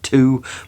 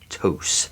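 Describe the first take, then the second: First: The word ends with no s sound. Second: The word ends with an s sound. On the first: The speaker calls it wrong. "I thought it was French and it was saying you pronounce it two" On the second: The speaker calls it right. "it's a Spanish company and it is pronounced Tous. T O U S"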